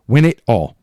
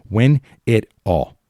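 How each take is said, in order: First: Louder, punched repeat; the fan's demand to the team, repeated louder; loud insistent demand. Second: Slow and weighty, each word set down; slow, insistent words to the team; slow, deliberate demand. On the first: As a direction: hit it harder the second time. Repeated demand, louder second take. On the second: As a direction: lay it out slowly like a mantra. Repeated demand, slower first take. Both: Real, not acted.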